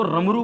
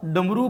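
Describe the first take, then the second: First: रमरू, with r in place of ड. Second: Said in the usual way. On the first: Retold or imitated. Teacher supposing the girl's error, रमरू with r. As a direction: say डमरू as रमरू, starting on r. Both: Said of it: "ड के स्थान पर र का प्रयोग".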